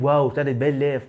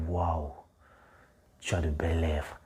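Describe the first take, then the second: First: It is said lightly, from the throat. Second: It is said deeply, from the belly.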